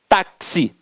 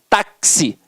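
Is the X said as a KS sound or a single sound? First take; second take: KS; KS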